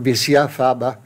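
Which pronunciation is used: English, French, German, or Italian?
French. It is pronounced with a French accent. "in French"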